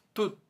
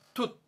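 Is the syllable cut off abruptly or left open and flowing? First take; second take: cut off; cut off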